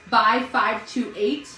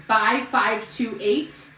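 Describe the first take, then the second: First: "By five two eight" said slowly, each number separate; code read slowly. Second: "Buy five two eight" drawn out, each number spaced; code read slowly. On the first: Reading the promo code to viewers, slow and spaced. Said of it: "reading out the promo code". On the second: Repeating the promo code to viewers, slower still. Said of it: "repeating the promo code". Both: Shown as a demonstration.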